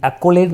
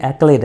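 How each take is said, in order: First: एक्कोलेड with an extra syllable, ek-ko-led; wrong pronunciation. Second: एक्लेड in two clean syllables, ek-led; correct pronunciation. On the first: Teacher shows students the wrong way, एक्कोलेड in three syllables. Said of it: "ये एक्कोलेड नहीं है". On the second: Teacher gives students the right form, एक्लेड in two syllables. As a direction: say एक्लेड short, with no middle o. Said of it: "ये एक्लेड है". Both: Shown as a demonstration.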